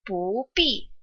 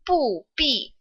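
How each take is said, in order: First: 不 is said with a rising tone. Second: 不 is said with a falling tone. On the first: "不 takes on the second tone" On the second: "不 normally is a fourth tone"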